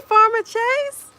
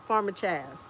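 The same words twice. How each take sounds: First: "Chase" said with a long A, as in "face", high and loud. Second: "Chaz" said with a short A, as in "jazz", ending in a z. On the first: Streamer greets a viewer by name, "Chase" with long A. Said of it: "How is it pronounced?". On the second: Streamer settles on viewer's name, "Chaz" with short A. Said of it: "I think it's Chaz". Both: Real, not acted.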